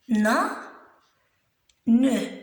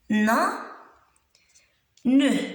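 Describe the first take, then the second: Both takes have the same delivery.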